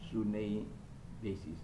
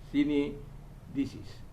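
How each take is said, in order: First: The first vowel is an 'oo' sound. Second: The first vowel is an 'ee' sound. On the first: It is read the way it is spelled. "kita sudah terbiasa mengatakan dengan tulisan dalam bahasa Yunani" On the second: It is read the way the letters actually sound. "u itu dibaca i"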